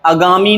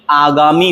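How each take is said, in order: First: आगामी said as "a-gaami"; short first vowel. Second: आगामी said as "aa-gaami"; long first vowel. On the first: Teacher recapping the mistake, आगामी with short a. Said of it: "आगामी नहीं". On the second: Teacher recapping, आगामी with long first aa. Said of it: "आगामी होता है". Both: Shown as a demonstration.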